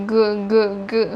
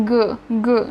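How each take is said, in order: First: เกอ เกอ เกอ drawn out slowly, throat buzzing; slow voiced g drill. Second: เกอ with a throaty voiced g; voiced g sound. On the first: Teacher drills เกอ slowly so learners feel the throat buzz. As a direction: stretch each เกอ so the throat vibrates. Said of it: "เราจะต้องจับลำคอก่อน". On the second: Teacher models เกอ for Thai learners, throaty and voiced. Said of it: "เสียงติดลำคอ". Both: Shown as a demonstration.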